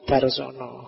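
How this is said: The word ends in an 'o' vowel sound. "kalau dibaca pakai lidah Jawa jadinya darsono"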